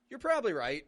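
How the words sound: Right is stressed, with probably shortened. It sounds more confident that the point is true. "The stress in this phrase is, is more on right"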